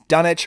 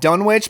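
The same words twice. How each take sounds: First: The name is pronounced the English way. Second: The name is pronounced as it is spelled. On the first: "the English pronunciation is Dunwich" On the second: "I've always said Dunwich because that's how it's spelled"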